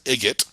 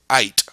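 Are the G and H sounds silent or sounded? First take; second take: sounded; silent. First: A hard G sound is pronounced in it. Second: No G sound is pronounced in it. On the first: The speaker calls it wrong. "we don't pronounce it as igot" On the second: The speaker calls it right. "we pronounce it as ite"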